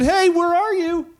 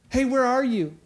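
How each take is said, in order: First: Loud, slow, high call across the garden; God calling loudly for the man. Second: Said in the usual way. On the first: Acted. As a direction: call out for someone you can't see. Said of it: "the Lord God called to the man and said". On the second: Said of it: "Like he didn't know".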